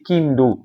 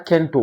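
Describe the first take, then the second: First: The name is said as Kin-do, with i and d. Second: The name is said as Ken-to, with e and t. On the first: The speaker calls it right. "on dit Kindo" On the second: The speaker calls it wrong. "On ne dit pas Kento"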